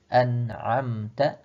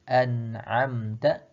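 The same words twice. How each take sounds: First: The last syllable is ta. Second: The last syllable is ta.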